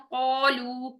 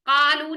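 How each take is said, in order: First: The vowel is heavy, with an o-like sound. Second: The vowel is thin, with a plain a sound. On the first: The speaker calls it right. "मोटा हर्फ है तो ओ की साउंड रखें" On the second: The speaker calls it wrong. "इसमें भी कालू नहीं करेंगे"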